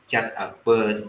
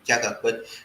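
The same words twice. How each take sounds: First: The final vowel is stretched like a double vowel. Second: The final vowel is short and single. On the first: "this uh is uh, elongated" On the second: "normally you should be"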